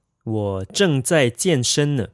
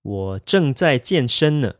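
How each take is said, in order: First: Said in the usual way. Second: Slower, carefully spaced drill; slow and clear model sentence; slow practice repeat. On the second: Shown as a demonstration. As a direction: say it slowly for learners to copy. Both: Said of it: "You would say".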